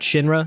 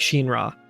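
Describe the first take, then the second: First: The name is read with English pronunciation. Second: The name is read with Japanese pronunciation. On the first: "like the kind of English way of reading that" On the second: "in the Japanese, it would kind of be Shinra"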